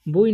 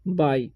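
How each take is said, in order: First: The vowel sounds like 'oo-ee'. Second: The vowel sounds like 'eye'. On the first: The speaker calls it wrong. "बुई नहीं पढ़ना है" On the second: The speaker calls it right. "इसे पढ़ेंगे हम बाई"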